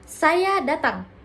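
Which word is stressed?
saya. The first word carries the stress. The focus is on who is coming. "Fokus pada satu pelaku"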